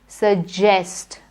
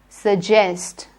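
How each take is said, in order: First: The middle consonant is a j sound. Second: The middle consonant is a j sound.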